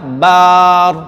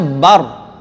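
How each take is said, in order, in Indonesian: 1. Vokalnya diucapkan panjang. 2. Vokalnya diucapkan pendek. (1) "tapi dibaca apa? Bar. Berarti takbiratul ihram dia tidak sah" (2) "Contohnya bar itu pendek, ba, ba-nya pendek. Jadi harusnya bar"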